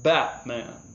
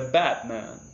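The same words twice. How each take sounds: Both takes have the same delivery.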